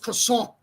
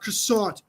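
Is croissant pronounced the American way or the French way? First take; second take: French; American. First: It is pronounced with a French sound. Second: It is pronounced with an American English sound. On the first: The speaker calls it right. "It's croissant" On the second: The speaker calls it wrong. "French people were complaining about how, like, it's not croissant"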